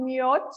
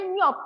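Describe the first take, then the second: First: The word ends with a ch sound. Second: The word ends with a clipped t sound. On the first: The speaker calls it wrong. "bukan myot" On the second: The speaker calls it right. "Jadi ini bacanya myot"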